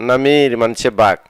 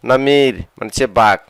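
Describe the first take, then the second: No difference in how they are said.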